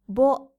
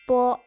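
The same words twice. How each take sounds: First: The b is voiced like English baby. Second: The b is voiceless and unaspirated. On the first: The speaker calls it wrong. "bo as in b in baby" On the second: The speaker calls it right. "bo is unaspirated"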